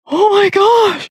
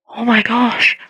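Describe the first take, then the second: First: Put-on high, breathless "Oh my gosh" in a girl's voice; astonished girl; stunned gasp. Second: Said in the usual way. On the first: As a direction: voice the shocked girl, pitched way up. Girl stunned by healing word.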